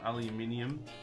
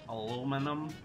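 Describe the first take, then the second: First: It is said with five syllables, British style. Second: It is said with four syllables, American style. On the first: "as uh, normal people would say" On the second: "as the Americans would say"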